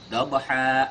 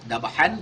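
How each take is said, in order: First: The word ends with a lengthened a vowel. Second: The word ends with an n sound. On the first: This is how it is read when stopping at the verse end. "kita baca dengan dua harokat" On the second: This is the written form with tanwin. "Dabhan kita baca dabha"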